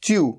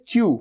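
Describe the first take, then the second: First: A y-glide comes before the vowel. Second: The same.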